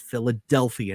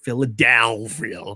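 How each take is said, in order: First: The word is said in a plain, ordinary way. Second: The word is said in a mannered announcer style. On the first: The speaker calls it right. "It's Philadelphia" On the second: The speaker calls it wrong. "not Philadelphia"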